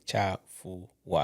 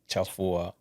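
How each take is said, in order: First: It is said slowly with the syllables separated. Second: It is said quickly with the syllables run together. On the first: The speaker calls it wrong. "You don't just say cha fu wa" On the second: The speaker calls it right. "you just say fast"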